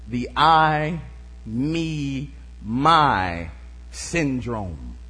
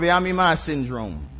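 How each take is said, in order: First: The words are said slowly and separately. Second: The words run together quickly as one word.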